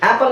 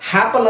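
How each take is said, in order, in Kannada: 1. ಪದ ನೇರವಾಗಿ ಸ್ವರ ಶಬ್ದದಿಂದ ಶುರುವಾಗುತ್ತದೆ. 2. ಪದ ಸೇರಿಸಿದ 'h' ಶಬ್ದದಿಂದ ಶುರುವಾಗುತ್ತದೆ.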